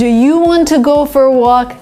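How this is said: "Want to" is said fully and carefully.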